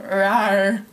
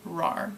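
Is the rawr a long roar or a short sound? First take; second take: long roar; short. First: It is a long, full roar like a lion. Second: It is a short, quick little growl. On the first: The speaker calls it wrong. "I don't go rawr like a lion" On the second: The speaker calls it right. "like just like short"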